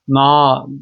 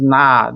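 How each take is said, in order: First: The vowel is a deep, back a sound. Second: The vowel is thinner, leaning toward e. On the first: The speaker calls it wrong. "onu kalın A ile söylerseniz" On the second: The speaker calls it right. "böyle bir inceltmeniz gerekiyor"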